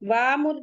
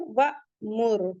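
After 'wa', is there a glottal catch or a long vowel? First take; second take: long vowel; glottal catch. First: The first vowel is drawn out, with no catch. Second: The first vowel is cut short by a catch. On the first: The speaker calls it wrong. "अब हम वामुर नहीं पढ़ेंगे, वामुर पढ़ेंगे तो इसका मतलब हम अलिफ को मद्दा बना दे रहे हैं" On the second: The speaker calls it right. "उसे झटके से पढ़ेंगे"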